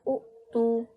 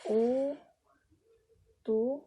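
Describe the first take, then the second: First: A glottal stop closes the short first syllable. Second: The first vowel is long with no glottal stop.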